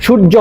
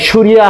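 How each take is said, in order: First: সূর্য said as শুর্জো, with a hard জ; সূর্য as শুর্জো, no ইয় glide; সঠিক বাংলা উচ্চারণ. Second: সূর্যা said as শুরিয়া, with a ইয় glide; ভুল উচ্চারণ. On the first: (সূর্য উচ্চারণ শুর্জো) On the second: (সূর্যা উচ্চারণ শুরিয়া) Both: Shown as a demonstration. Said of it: "সূর্যা হয় না".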